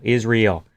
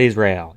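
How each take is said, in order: First: "Israel" said as "is real", with EE; intended pronunciation. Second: "Israel" said as the country, IZ-ray-el; wrong pronunciation. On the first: Streamer clarifying the phrase, pronouncing "Israel" as is REEL. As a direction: say "Israel" like the two words "is real". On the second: Streamer ruling out a misreading, pronouncing "Israel" as IZ-ray-el. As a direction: say "Israel" with an AY in the second syllable. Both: Shown as a demonstration. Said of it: "Not Israel".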